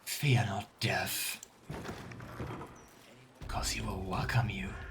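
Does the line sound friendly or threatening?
threatening. It is said in a menacing, threatening way. The listener is going to be killed.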